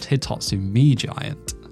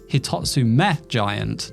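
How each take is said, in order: First: The first word ends with an 'mee' sound. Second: The first word ends with an 'meh' sound. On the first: The speaker calls it wrong. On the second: The speaker calls it right. "the name should be pronounced"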